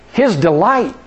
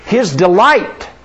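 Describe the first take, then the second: First: Said in the usual way. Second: His delight, slow, dwelling on delight; stress on delight. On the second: Shown as a demonstration. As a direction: lean into the word delight.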